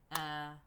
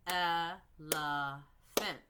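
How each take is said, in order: First: Said in the usual way. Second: Elephant drawn out very slowly, sound by sound; stretched out slowly. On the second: Shown as a demonstration. Teacher showing the class by stretching the word slowly. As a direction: stretch Elephant out so the onset and rhyme can be heard. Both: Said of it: "I'm looking for the beginning sound and the end sound".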